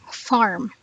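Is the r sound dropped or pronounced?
pronounced. The r sound is pronounced. "but in rhotic it is farm"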